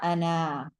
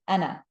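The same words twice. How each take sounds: First: The vowel after the N is drawn out long. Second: The vowel after the N is short. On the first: The speaker calls it wrong. "not ana" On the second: The speaker calls it right. "short noon"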